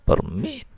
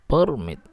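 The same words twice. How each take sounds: First: The stress is on the second syllable. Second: The stress is on the first syllable. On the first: It is a verb. "ketika yang ditekan suku kata yang akhir" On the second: It is a noun. "ketika suku kata awal ditekan"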